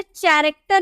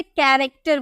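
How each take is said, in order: First: कैरेक्टर said with ch at the start; wrong example. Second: कैरेक्टर said with k at the start; correct example. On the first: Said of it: "इसे कैरेक्टर नहीं बोलेंगे". (गलत कैरेक्टर, च से शुरू) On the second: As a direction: model कैरेक्टर starting with a hard क. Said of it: "इसे कैरेक्टर बोलेंगे". (सही कैरेक्टर, क से शुरू) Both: Shown as a demonstration.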